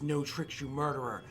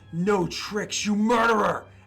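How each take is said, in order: First: It is said with some force but mellower. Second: It is said with strong, overt, intense tone. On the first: The speaker calls it right. "The second time it was a lot more mellowed out" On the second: The speaker calls it wrong. "the first um, time had too much tone to it"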